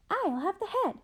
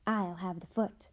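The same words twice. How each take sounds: First: Much higher, grabbing the head; the second sister squeals her claim; high greedy ghost sister. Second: Said in the usual way. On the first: Acted. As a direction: pitch up, a sweet greedy claim. The other sister answers high.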